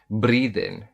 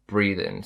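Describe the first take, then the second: First: It has an Indian-style R and dropped G. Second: It has a London-style R and dropped G. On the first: "if you're still pronouncing the R, how it's pronounced in the Indian accent" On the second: "In M L E it would be breathe in"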